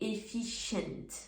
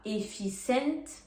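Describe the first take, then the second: First: The c is pronounced as a sh sound. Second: The c is pronounced as an s sound. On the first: The speaker calls it right. "on dit efficient" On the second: The speaker calls it wrong. "On ne dit pas efficient"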